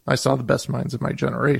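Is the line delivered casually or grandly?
casually. It is delivered casually, like an ordinary reading.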